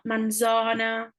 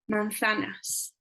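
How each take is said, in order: First: The z is said as a buzzing z sound. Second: The z is said with the tongue between teeth. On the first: The speaker calls it wrong. "It's not manzana. ... don't do a Z" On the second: The speaker calls it right. "do a manzanas"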